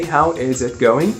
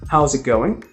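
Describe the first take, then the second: First: Every word is said fully and separately. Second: It is said quickly with words run together.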